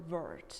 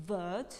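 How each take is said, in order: First: "word" with a strong R; "word" as "wurrd"; American R. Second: "word" with a silent R; "word" as "wuhd"; British dropped R. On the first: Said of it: "R is pronounced in American accent". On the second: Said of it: "in British accent". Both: Shown as a demonstration.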